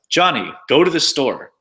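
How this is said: The delivery sounds like a command. It orders someone to act. "commands like"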